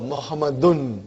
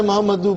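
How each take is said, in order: First: The word ends with an added n sound. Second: The word ends in a plain vowel, no n. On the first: The speaker calls it right. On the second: The speaker calls it wrong. "Why do you want to take away one tanween?"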